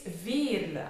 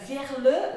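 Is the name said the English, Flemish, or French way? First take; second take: Flemish; French. First: It is said with a Flemish accent. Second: It is said with a French accent. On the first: The speaker calls it right. "it's a typical Flemish name" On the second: The speaker calls it wrong. "like the French ones"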